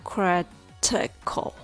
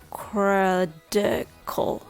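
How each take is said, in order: First: The middle T is a crisp, full T. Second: The middle T sounds like a soft D.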